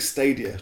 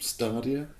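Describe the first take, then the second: First: The first vowel differs from the vowel in bath. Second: The first vowel sounds like the vowel in bath. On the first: "I think Stadia" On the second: "But that sounds like bath"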